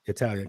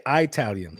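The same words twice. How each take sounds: First: Said in the usual way. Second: "Italian" as locals say it, eye-TAL-yun; long-I "Italian". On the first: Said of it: "For me, it's Italian". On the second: Shown as a demonstration. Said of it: "a lot of people around me".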